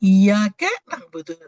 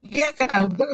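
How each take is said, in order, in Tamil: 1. 'y' ஒலியை அழுத்தி நீட்டிச் சொல்லணும். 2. 'y' ஒலி லேசானது, அழுத்தம் இல்லை. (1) "அந்த சத்த வந்து அழுத்தி சொல்லணும்" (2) "சூரியனை வணங்குறேன்னு"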